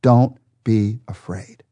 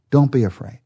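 First: Slow, gentle "Don't be afraid." with a drawn-out "afraid"; reassuring. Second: Said in the usual way. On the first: Shown as a demonstration. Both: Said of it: "and God says to you right now".

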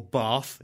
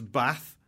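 First: "Bath" with a long ah; local long-a Bath. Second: "Bath" with a short a. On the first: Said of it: "if you're from there". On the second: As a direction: say "Bath" with the vowel of "cat". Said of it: "or Bath if you're from there". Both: Shown as a demonstration.

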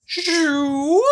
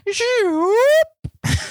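First: Second high zoop; zoop sound effect. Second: High sliding zoop; a silly rising zoop noise; zoop sound effect. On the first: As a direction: repeat the rising zoop noise. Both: Shown as a demonstration. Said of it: "here's the little sound effect".

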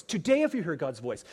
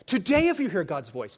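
First: Said in the usual way. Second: TODAY punched louder, opening the refrain; preacher stressing the word today to the congregation, emphatic. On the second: Shown as a demonstration. First call of a repeated refrain, strong. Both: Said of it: "the repetitive emphasis".

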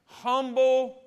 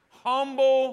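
First: "Humble." sung out high and loud; call and response. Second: "Humble." sung out high and loud once more; call and response. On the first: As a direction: lead the church with "Humble.". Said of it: "Let me say it again". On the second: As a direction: pull the answer out with "Humble.". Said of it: "Say it again". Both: Shown as a demonstration.

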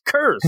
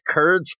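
First: "curs" without a D, pitched high; corrected trash-talk word. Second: "curds" with a D, slowly; botched trash-talk word. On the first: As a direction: correct it quickly to "curs", no d sound. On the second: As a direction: mispronounce the insult as "curds", with a d sound. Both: Retold or imitated. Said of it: "he keeps getting words wrong".

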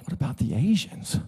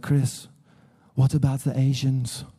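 First: Softer, mock-bewildered echo; baffled echo. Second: Lightly imitated German-accented question. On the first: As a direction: repeat the question in puzzlement, rising at the end. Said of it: "I was like". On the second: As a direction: imitate a German wife asking earnestly. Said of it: "she's, she's German, you know".

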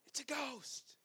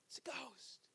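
First: Higher, frightened cry of terror. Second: Softer, whispered terror. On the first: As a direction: cry out as if you've seen a ghost. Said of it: "they cried out". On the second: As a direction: breathe it out in a scared whisper. Whispered echo of the cry. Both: A narrator's reading.

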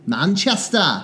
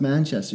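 First: Manchester with a broad put-on English accent; mock English accent. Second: Said in the usual way. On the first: Shown as a demonstration. Correcting co-host's pronunciation of Manchester, mock English accent. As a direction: Manchester as a hammy Brit, ending in "-ah". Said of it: "You have to say Manchester". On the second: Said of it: "that's not how you pronounce Manchester".

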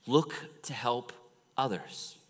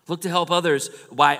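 First: Said in the usual way. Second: "Look to help others" repeated louder and higher; "others" hit hard, louder, second time round; emphatic repeat. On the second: Shown as a demonstration. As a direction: drive the point home.

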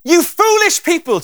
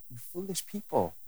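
First: High, loud and slow, scolding hard; harsh rebuke. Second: Gentle tender version. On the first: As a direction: bark it out like an angry rebuke. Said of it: "the intonation of Jesus' voice". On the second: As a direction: say it fondly, like to a dear friend. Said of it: "it's a big difference". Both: Shown as a demonstration.

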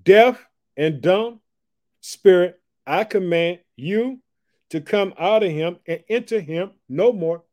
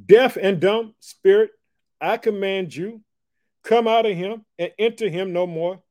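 First: Slow, loud, high commanding rebuke; commanding Jesus. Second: Slow, loud, high rebuke of the spirit; commanding Jesus. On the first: Jesus rebukes the unclean spirit, slow and commanding. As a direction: order the spirit out with authority. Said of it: "This is what he says". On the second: Jesus commands the spirit out, slow and loud. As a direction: command it out, word by word. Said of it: "He said this". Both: Acted.

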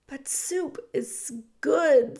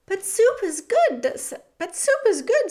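First: Mouse voice. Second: High stammering insistence; pleading, tripping over the words; excited stammer. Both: Acted. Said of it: "said Despereaux".

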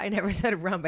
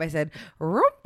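First: Rump said loud, as S1 mocked it; "rump" mocked, loud with a laugh; rump, the wrong way. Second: Her own "rump", trailing off. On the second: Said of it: "I would not spell it the way I said rump". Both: Shown as a demonstration.

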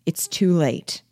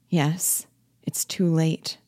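First: Said in the usual way. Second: Hushed whisper of despair; whispered dread. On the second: Acted. Wife echoes her husband's words to herself, a whisper of dread. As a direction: breathe it out, barely voiced.

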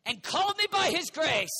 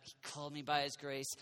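First: Loud, higher preached line; booming, higher proclamation; preaching. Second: Softer, lower, tender repeat; savoring. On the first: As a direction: proclaim it out over the crowd. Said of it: "ooh, his loving kindness". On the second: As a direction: linger over the words quietly. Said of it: "I like that". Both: Shown as a demonstration.

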